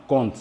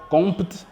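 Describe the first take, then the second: First: "compte" with no P sound; silent P. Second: "compte" with a P before the T; wrongly sounded P. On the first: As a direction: say "compte" like "conte". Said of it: "mais nous disons simplement compte". (« compte » avec le p muet) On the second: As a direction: say "compte" as "comp-t", P heard. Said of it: "On ne prononce pas compte". (« compte » en prononçant le p) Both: Shown as a demonstration.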